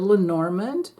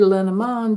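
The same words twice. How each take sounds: First: The name is pronounced with American English sounds. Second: The name is pronounced with French sounds. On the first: "That would be the um, English American way" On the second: "that's the way you pronounce it in French"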